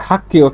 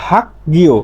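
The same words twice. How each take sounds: First: Voiceless double k in the middle of হাক গিয়; corrected k reading. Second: Two parts in হাক গিয়, the second opening on g; voiced g reading. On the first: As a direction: say হাক গিয় as "hak-kio", g turned to k. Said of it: "এর সঠিক উচ্চারণ হচ্ছে". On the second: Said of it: "গিয়ক তো মাঝে থাকলে গ হয়". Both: Shown as a demonstration.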